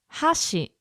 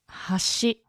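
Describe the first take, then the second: First: The pitch starts high and falls. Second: The pitch starts low and rises. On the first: It means chopsticks. "where it starts up and it goes down" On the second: It means bridge or edge. "hashi is bridge or the edge"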